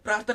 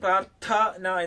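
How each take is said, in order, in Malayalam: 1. ഈ സംയുക്തം ദൈനംദിന ലഘുരൂപത്തിലാണ് പറയുന്നത്. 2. എഴുതിയിരിക്കുന്ന എല്ലാ വ്യഞ്ജനങ്ങളും ഉച്ചരിക്കുന്നു. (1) "നമ്മൾ പ്രാർത്ഥന എന്ന് പറഞ്ഞ് വായിക്കുന്നു" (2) "നമ്മൾ ശരിക്കും എഴുതുന്നത്"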